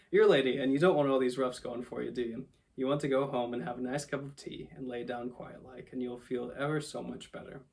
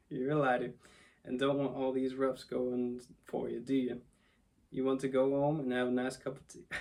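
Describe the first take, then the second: First: Cabby coaxing, southern slip corrected; cabby accent. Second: Put-on cabby slipping into a southern accent; lightly southern-tinged cabby, coaxing. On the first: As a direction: coax the lady as a lightly voiced cabby. Retake of cabby after accent slip. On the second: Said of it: "in a southern accent". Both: A narrator's reading.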